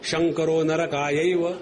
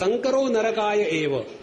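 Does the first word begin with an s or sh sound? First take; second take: sh; s. First: The first word begins with an sh sound. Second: The first word begins with an s sound. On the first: Lord Shankar is for hell. The speaker calls it wrong. "स को वो श कहते हैं बंगाली बंधु" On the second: Mixing leads to hell. The speaker calls it right. "वो शब्द था"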